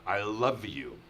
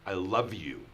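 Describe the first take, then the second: First: It is said in a harsh, angry tone. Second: The same.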